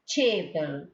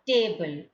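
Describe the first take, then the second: First: The first t has a strong puff of air. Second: The first t has no puff of air. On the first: The speaker calls it right. "we are just aspirating it and telling like chable" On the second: The speaker calls it wrong. "It's not table"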